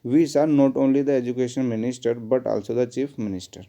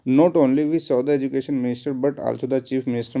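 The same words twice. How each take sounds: First: Corrected sentence read slowly and evenly; slow dictation. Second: Slow, deliberate dictation of a sentence. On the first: Teacher dictating the corrected sentence, slowly. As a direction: spell it out clearly, word by word. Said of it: "इस not only को यहाँ से हटा के कहाँ पे लिख लीजिए". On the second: Teacher dictating the wrong sentence to students, slowly. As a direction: read it out word by word for the class. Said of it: "not only but also". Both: Shown as a demonstration.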